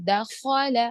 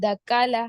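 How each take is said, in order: First: The middle consonant is a heavy, thick kh. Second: The middle consonant is a plain k sound. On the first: The speaker calls it right. "खो को मोटा ही पढ़ना है" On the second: The speaker calls it wrong. "खो की जगह खाल, काफ ले ले रहा हूँ"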